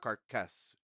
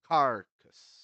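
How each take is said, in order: First: The stress is on the second syllable. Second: The stress is on the first syllable. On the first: The speaker calls it wrong. "not carcass" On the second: The speaker calls it right. "the first syllable is the has the stress"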